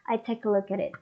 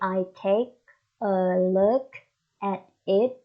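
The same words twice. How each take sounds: First: The words run together in linked speech. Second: Each word is said separately without linking. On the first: The speaker calls it right. "We say I take a, take a look at, look at, and then look at it" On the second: The speaker calls it wrong. "We don't say I take a look at it"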